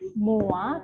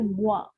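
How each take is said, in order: First: The o and i sound as separate vowels. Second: The o and i blend quickly into wa. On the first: The speaker calls it wrong. "bukan moi" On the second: The speaker calls it right. "tapi moi; bukan oa tapi wa... dibaca cepat"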